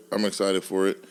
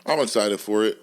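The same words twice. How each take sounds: The two takes are said the same way.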